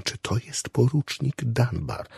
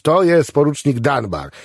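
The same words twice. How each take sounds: First: Soft, slow, hushed query; whispered question. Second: Higher, openly loud answer; full voice. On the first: Chaplain asks patient who another man is, whispering. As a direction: ask discreetly in a slow half-whisper. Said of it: "spytał szeptem". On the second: Patient answers the whispering chaplain, at full voice. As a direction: announce it out loud with no discretion. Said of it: "na cały głos". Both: A narrator's reading.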